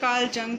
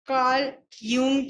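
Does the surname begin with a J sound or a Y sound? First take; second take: J sound; Y sound. First: The surname begins with a J sound. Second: The surname begins with a Y sound. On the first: "जिस हिसाब से pronounce करना चाहो" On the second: "जिस हिसाब से pronounce करना चाहो"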